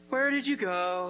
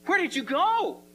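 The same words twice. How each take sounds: First: It is said in a bored monotone. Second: It is said with lively excitement.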